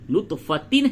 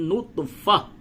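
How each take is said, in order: First: The word ends in a tin sound. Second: The word ends in a soft h sound. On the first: The reader carries on without stopping. "नुतफ़तिन है" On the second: The reader stops at this word. "वक्फ करेंगे तो ये जो ता है इसको हा से बदल देंगे"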